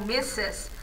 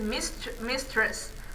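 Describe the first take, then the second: First: It is said without a t or r sound. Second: It is said with a t and r sound. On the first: It is the usual everyday form. "eles pronunciam mais como missus" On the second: It is used when emphasizing something. "tem gente que fala mistress"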